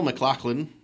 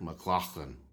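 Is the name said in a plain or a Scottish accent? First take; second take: plain; Scottish. First: The name is said in a plain accent. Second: The name is said in a Scottish accent.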